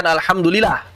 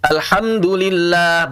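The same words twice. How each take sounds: First: "alhamdulillah" quicker, with a single short l; missing tasydid. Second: "Alhamdulillah" slow, with the double l held; doubled lam. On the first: Teacher shows the wrong reading, "alhamdulillah" with undoubled l. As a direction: slip through "alhamdulillah" without holding the l. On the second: Teacher models the right reading, "Alhamdulillah" with a strong held l. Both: Shown as a demonstration. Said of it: "bukan alhamdulillah".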